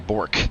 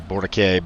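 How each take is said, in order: First: The name has a simplified English pronunciation. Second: The name has a French-style pronunciation. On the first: This is the simplified Canadian way of saying it. "it's clearly Bork" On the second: This is how the commentators say it. "Maybe the French com- pronunciation is Borke"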